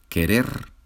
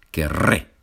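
First: Said in the usual way. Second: Querré with a long trilled rr, ke-RRE; rolled double R. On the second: Shown as a demonstration. Spanish teacher showing students the trilled rr, querré rolled. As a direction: roll the rr in querré firmly. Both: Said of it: "la R vibrante es un poquito difícil".

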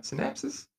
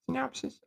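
First: Synapsis said high and questioning; unsure guess. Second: Synopsis said high and rising, "sin-OP-sis"; unsure correction. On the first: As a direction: ask synapsis? with a high rising tone. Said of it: "Syn-, syna". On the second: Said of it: "Is that the word?". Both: Real, not acted.

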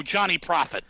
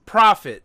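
First: Profit said as plain Profit; Johnny Profit. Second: Profit said as PRO-fit, loud and firm; Profit corrected. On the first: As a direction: Profit with a short flat i. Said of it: "Profit, thank you". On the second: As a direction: Profit stressed on the first syllable. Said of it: "thank you". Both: Real, not acted.

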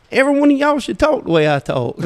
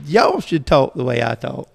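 First: High, loud scolding retold with gusto; scolding the room. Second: Said in the usual way. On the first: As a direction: scold them like a proud Southern preacher. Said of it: "And I got on to 'em". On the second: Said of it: "I said".

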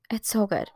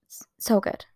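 First: Said in the usual way. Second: Breathless whispered It's so good. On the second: Real, not acted. Telling viewers about the new album, whispering. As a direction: whisper it in awe.

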